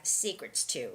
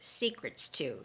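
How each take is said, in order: First: The S sound before 'to' is clearly pronounced. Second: The S sound before 'to' is clearly pronounced.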